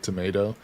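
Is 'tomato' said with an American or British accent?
American. It is said in an American accent. "we say tomato"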